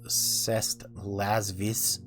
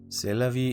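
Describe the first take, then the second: First: The written letters like 's' and 't' are sounded. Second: The written letters like 's' and 't' are silent. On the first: The speaker calls it wrong. "would probably deserve to be mocked" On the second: The speaker calls it right. "the bare minimum pronunciation for that"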